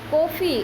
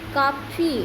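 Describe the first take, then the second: First: The first vowel is a rounded 'aw' sound. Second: The first vowel is an open unrounded 'aa'. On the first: This is the English way of saying it. "अंग्रेजी में बोलेंगे का कॉफ़ी" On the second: This is the everyday Hindi way of saying it. "ऐसे ऐसे तो अपन हिंदी में काफ़ी बोलते हैं"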